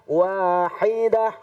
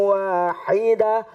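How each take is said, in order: The two takes are said the same way.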